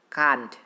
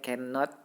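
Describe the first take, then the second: First: It is said as a short one-syllable contraction. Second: It is said as the full two-syllable form. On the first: "Yang kedua adalah can't" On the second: "Yang pertama itu cannot"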